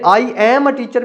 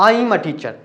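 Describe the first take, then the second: First: The words 'I am' are said in full. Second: The words 'I am' are contracted to 'I'm'. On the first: "मैंने आई एम a teacher भी कह सकता था" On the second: "लेकिन मैंने कहा आई एम a teacher"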